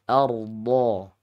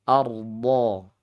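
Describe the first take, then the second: The two takes are said the same way.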